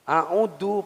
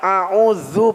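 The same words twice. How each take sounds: First: The middle consonant is a hard d sound. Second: The middle consonant is a soft dh sound. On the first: I ask Allah to give back the accursed devil's temptation. The speaker calls it wrong. "ini a'udzu pakai dal" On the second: I seek refuge in Allah from the accursed devil. The speaker calls it right. "kalau dibaca a'udzu pakai zal"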